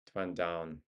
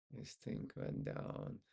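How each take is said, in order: First: Said in the usual way. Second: This thing went down whispered low and slow; whispered aside. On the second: Shown as a demonstration. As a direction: mutter This thing went down under your breath, low and slow. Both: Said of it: "repeated under breath".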